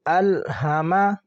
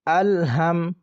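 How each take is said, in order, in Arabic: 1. الحرف الأخير يحمل حركة قصيرة. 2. الحرف الأخير ينتهي بدون حركة.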